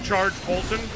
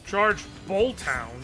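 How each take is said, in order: First: Bolt and Hound run together like 'Bolton'. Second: Bolt and Hound are said as separate words.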